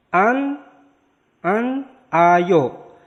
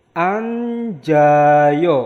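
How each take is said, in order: First: An ayo said split apart, high and clear; separate syllables. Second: Anjayo said joined, the n sliding into j; linked pronunciation. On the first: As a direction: break it as an, ayo. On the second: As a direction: run it together as anjayo. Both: Shown as a demonstration. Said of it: "jadi disambung".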